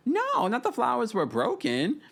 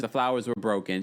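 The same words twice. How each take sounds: First: Retold incredulous outburst; mock disbelief. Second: Said in the usual way. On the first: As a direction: repeat it way up high, as if scandalised. Mock reaction to retold remark.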